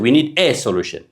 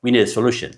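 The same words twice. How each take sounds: First: "a" said as a full, stressed ay; wrong full a. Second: "a" said as a quick weak uh; reduced a. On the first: Teacher showing the wrong way to learners. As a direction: land on the "a" as a separate clear vowel. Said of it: "We don't say". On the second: Teacher giving the right version after the wrong one. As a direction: let "a" run into "solution" unstressed. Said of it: "No, a የለን". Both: Shown as a demonstration.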